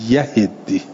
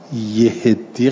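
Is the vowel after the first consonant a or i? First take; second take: a; i. First: The first syllable has the vowel a. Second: The first syllable has the vowel i. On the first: The speaker calls it right. "باید بگیم یهدی" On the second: The speaker calls it wrong. "یهدی غلط میشه"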